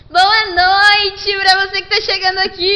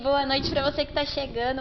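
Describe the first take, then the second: First: It is said with lively energy. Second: It is said calmly and slowly.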